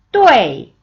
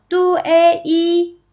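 First: 뚜에이 as one loud syllable sliding sharply down; falling fourth tone. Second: 뚜에이 slowly in separate syllables, held high and level; toneless pronunciation. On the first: Teacher demonstrating fourth tone, 뚜에이 loud and falling. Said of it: "쭉 하고 내려오는 사성이죠". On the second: Teacher showing sounds first, 뚜에이 slow, high and level. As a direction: spell out 뚜에이 sound by sound without the falling tone. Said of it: "먼저 발음 먼저 볼게요". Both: Shown as a demonstration.

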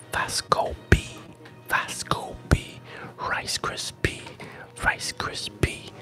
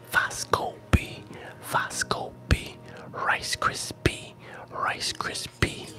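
No difference in how they are said.

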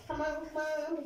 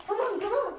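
First: Softer, under-breath come on; quiet urging. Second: Higher, urging come on; urgent hurry. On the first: Girl rushing a cleanup, quiet under-breath urging. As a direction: mutter it to yourself. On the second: Girl rushing a cleanup, urgent higher urging. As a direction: push them to hurry. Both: Real, not acted.

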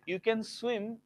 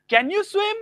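First: "You can swim" level and falling; statement tune. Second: "Can you swim?" much higher and louder, rising; question tone. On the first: Teacher contrasts statement with question, falling tune. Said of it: "is a statement". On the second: Teacher shows the proper question tone, high and loud. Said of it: "This is the tone". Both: Shown as a demonstration.

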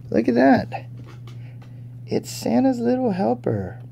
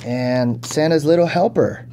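First: Much higher, thrilled squeal of recognition; excited delight. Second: Said in the usual way. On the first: Real, not acted. Collector spotting the dog figure, higher with excitement.

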